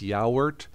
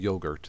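First: It is said with separate vowels, ya-oort. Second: It is said like the English word yogurt. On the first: The speaker calls it right. "It's actually, I believe it's yaourt" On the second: The speaker calls it wrong. "Now it's not yogurt. I like to say it that way"

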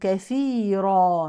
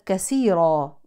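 First: The second consonant is a th sound. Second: The second consonant is an s sound. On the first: The word comes from abundance. The speaker calls it right. "ولكن كثيرا من الكثرة" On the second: The word comes from breaking. The speaker calls it wrong. "لا تبدل بسين، ليست كثيرا وكأنها من التكسير"

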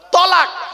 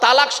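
First: The word begins with an emphatic t sound. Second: The word begins with a plain t sound. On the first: It means to divorce. The speaker calls it right. "শব্দটা কি? তলাক।" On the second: It means to join together. The speaker calls it wrong. "শব্দটা কিন্তু তালাক নয়"

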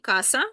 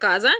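First: The middle consonant is a hissing s sound. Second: The middle consonant is a buzzing z sound. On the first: The speaker calls it right. "ні, каса, тільки с" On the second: The speaker calls it wrong. "Не треба казати"

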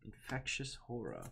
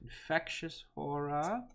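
First: It is said in the speaker's usual accent. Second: It is said with a put-on British accent. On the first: The speaker calls it wrong. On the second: The speaker calls it right.

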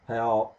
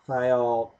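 First: The word is said at a faster pace. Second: The word is said at a slower pace. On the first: "You better like pronounce it really, faster than I'm saying now" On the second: "faster than I'm saying now"

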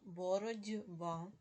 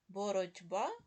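First: The consonant before б is a voiced d. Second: The consonant before б is a voiceless t.

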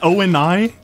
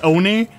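First: Each letter of the name is said separately. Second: The name is said as a single word. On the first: The speaker calls it wrong. "It's not O-N-I. You don't say every letter of it" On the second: The speaker calls it right. "It's Oni"

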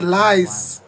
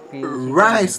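First: The word starts with an L sound. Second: The word starts with an R sound. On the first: The speaker calls it wrong. "not rice" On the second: The speaker calls it right.

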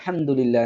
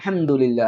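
First: The opening 'al' syllable is left out. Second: The opening 'al' syllable is left out.

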